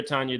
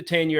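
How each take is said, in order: First: "Tanya" with an open ah, TAHN-ya; second pronunciation of Tanya. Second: "Tanya" with the flat a of "tan"; first pronunciation of Tanya. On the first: Host offering the other version of the name, "Tanya" said TAHN-ya. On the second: Host unsure of a housewife's name, "Tanya" said TAN-ya. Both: Shown as a demonstration. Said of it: "It was either Tanya or Tanya".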